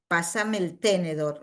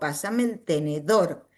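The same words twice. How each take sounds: First: The stress in tenedor is on the first syllable. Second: The stress in tenedor is on the last syllable. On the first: The speaker calls it wrong. "No digo" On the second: The speaker calls it right.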